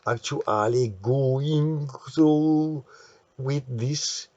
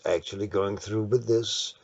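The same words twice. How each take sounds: First: It is spoken with an Italian accent. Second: It is spoken with an English accent.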